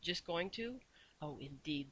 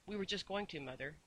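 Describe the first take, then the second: First: Softly menacing question; soft, fierce, terrifying. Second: A touch of fear, kept quiet; frightened whisper. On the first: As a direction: keep the fury hushed and dangerous. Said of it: "in a soft, fierce, terrifying voice". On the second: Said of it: "in a frightened whisper". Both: A narrator's reading.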